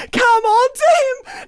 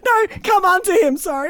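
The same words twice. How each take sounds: First: High, loud preacher exclamation; mock preacher. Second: Said in the usual way. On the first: Shown as a demonstration. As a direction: proclaim it like a revival preacher.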